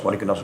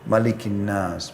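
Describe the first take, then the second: First: It is recited quickly, running into the next words. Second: It is recited slowly, followed by a pause. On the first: The reader does not make clear what is being read. The speaker calls it wrong. "seperti orang terburu-buru" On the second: The reader gives each phrase its due. The speaker calls it right. "pelan-pelan ... berhenti"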